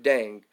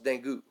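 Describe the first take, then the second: First: The word ends on the 'ng' sound, no vowel. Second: The word ends with an added 'goo' vowel sound. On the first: The speaker calls it right. "but Dang" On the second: The speaker calls it wrong. "It looks like it should be pronounced Dangu"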